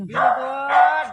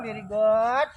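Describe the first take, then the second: First: Stretched out, louder praise for a pet; slow, pleased pet praise, louder. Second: Said in the usual way. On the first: Real, not acted. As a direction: draw out very good to reward the pet.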